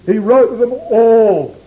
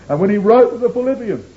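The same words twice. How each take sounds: First: "all" slow and louder, leaned on; stress on all. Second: Said in the usual way. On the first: Shown as a demonstration. Preacher to ecclesia, "all" leaned on heavily. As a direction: drag out "all" with weight. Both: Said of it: "he emphasized that word all".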